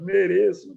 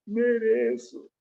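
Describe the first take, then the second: First: Menino chorando, voz aguda; soluça a palavra "Mereço"; choro imitado. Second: Criança chorando, voz aguda e lenta; choro imitado. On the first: (criança chorando admite a culpa) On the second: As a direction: arrasta a palavra como quem chora. (menino chorando admite "Mereço") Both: Retold or imitated.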